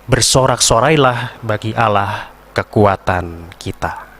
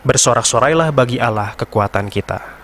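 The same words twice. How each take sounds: First: It is slowed down and spoken in a low pitch. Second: It keeps normal speed without slowing at the end. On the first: It signals the people to respond with the refrain. The speaker calls it right. "Temponya lambat dan nadanya rendah" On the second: It gives no cue that the people should respond. The speaker calls it wrong. "Di ujung bait itu tidak ada pengereman"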